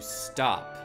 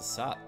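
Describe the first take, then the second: First: The word is said with a t sound. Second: The word is said without a t sound. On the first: The speaker calls it right. "With a T in it" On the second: The speaker calls it wrong. "Not sop. I pronounced it wrong"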